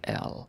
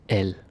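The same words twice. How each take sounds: First: The letter name is drawn out longer. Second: The letter name is clipped and shorter. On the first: "in English, especially American English, you say like L" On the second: "We say L. And it's like shorter"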